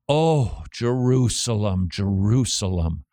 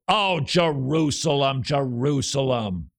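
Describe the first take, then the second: First: It is said in a brokenhearted, grieving tone. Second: It is said in an unmoved, not grieving tone. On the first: The speaker calls it right. "the brokenhearted Jesus" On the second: The speaker calls it wrong. "As opposed to"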